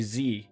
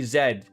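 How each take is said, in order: First: The letter is said the American way. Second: The letter is said the Canadian way. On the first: "whereas Americans say Z" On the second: "we say Z"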